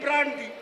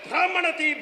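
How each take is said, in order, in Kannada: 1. ಈ ಪದವನ್ನು ವೇಗವಾಗಿ ಹೇಳಲಾಗಿದೆ ಮತ್ತು ಚಿಕ್ಕದಾಗಿ ಸಂಕುಚಿತಗೊಳಿಸಲಾಗಿದೆ. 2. ಈ ಪದವನ್ನು ಸಾಮಾನ್ಯ ವೇಗದಲ್ಲಿ, ಪೂರ್ಣವಾಗಿ ಹೇಳಲಾಗಿದೆ.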